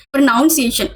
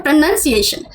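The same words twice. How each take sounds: First: प्रोनाउंसिएशन said as "pro-NOUN-ciation"; mispronounced word. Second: प्रोनाउंसिएशन said as "pro-nun-ciation"; short "nun" in the middle of प्रोनाउंसिएशन; correct pronunciation. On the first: Echoing classmates' mistake, mispronounced with a "noun" sound. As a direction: put "noun" into the middle of प्रोनाउंसिएशन. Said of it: "बच्चे ना इसको प्रोनाउंसिएशन बोलते थे". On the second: English teacher correcting the children, pronounced with "nun". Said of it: "इस word को हम बोलते हैं". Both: Retold or imitated.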